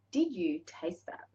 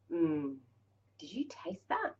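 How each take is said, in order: First: Slow, soft question; unhurried, voiced and softly wondering; deliberate savouring. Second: Whispered question to yourself; barely voiced, intimate whisper; hushed savouring. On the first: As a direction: draw out "Did you taste that?" slowly. Repeats the question more deliberately. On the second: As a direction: whisper it, lost in the taste. Acts out savouring a first taste.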